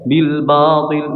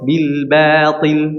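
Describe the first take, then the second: First: The b in batil sounds heavy and thick. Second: The b in batil sounds light and thin. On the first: The speaker calls it wrong. "pasti bacanya bil batil" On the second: The speaker calls it right. "harusnya gimana? ... huruf ba-nya tipis"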